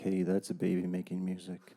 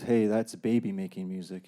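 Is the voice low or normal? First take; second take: low; normal. First: It is said in a low voice. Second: It is said in a normal voice.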